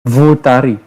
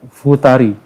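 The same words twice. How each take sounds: The two takes are said the same way.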